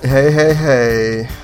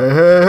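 First: It is said with less energy. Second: It is said with more energy and gusto.

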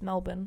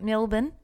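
First: The word is said with an A sound. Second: The word is said without an A sound. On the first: This is how locals say it. The speaker calls it right. "We pronounce it with an A" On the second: This is how people from elsewhere say it. The speaker calls it wrong. "Not Melbourne"

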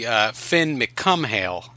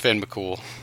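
First: The surname is read letter by letter, English-style. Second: The surname is said short, sounding like cool. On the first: The speaker calls it wrong. "if you like, pronounced it like, you know, it was an English word" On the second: The speaker calls it right. "Nah, it's Finn McCool"

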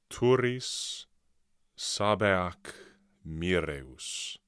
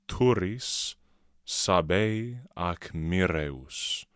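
First: Sabei and ac merge into one word. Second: Sabei and ac are said as separate words.

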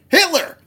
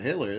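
First: The word is exclaimed loudly and urgently. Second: The word is said flatly, without exclamation.

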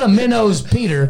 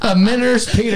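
First: The word minnow ends with an 'oh' sound. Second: The word minnow ends with an 'er' sound. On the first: The speaker calls it wrong. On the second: The speaker calls it right. "that's how you say it"

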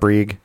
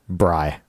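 First: The vowel does not rhyme with sigh. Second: The vowel rhymes with sigh. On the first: The speaker calls it wrong. "It's not Brieg" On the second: The speaker calls it right. "Like sigh"

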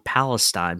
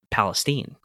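First: The word is said in a standard way. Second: The word is said in a Southern US way. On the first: "called On Palestine" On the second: "but he pronounces it Palestine"

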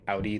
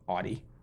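First: It is said the standard way. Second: It is said the New England way.

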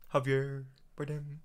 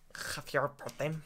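First: It is said in a plain, unaccented voice. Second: It is said in a put-on Spanish accent.

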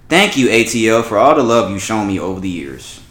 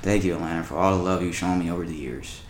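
First: It is read in a lively way. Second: It is read in a dull way.

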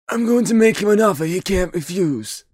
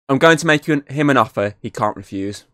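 First: The line is said in a put-on impression voice. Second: The line is said in a normal voice.

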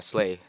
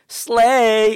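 First: It is said casually, without emphasis. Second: It is said with heavy, exaggerated emphasis.

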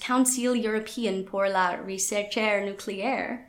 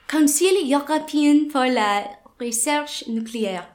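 First: It is said with an English accent. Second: It is said with a French accent.

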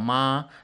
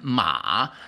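First: The pitch stays high and level. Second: The pitch dips low and then rises. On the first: It means mother. "The first tone ma is mother" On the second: It means a horse. "And ma, the third horse"

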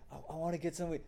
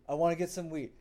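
First: It is said quietly and hesitantly. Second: It is said loudly and boldly.

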